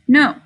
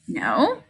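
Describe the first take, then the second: First: The voice falls at the end. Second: The voice rises at the end. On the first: It is a plain statement. "this just says no" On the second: It is a question. "This one has a question mark and it says no"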